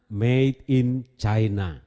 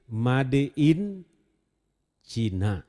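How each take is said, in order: First: It is pronounced with English sounds. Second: It is read letter by letter, Indonesian style. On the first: "karena ini bahasa Inggris" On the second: "kalau tulisannya sih Made in Cina"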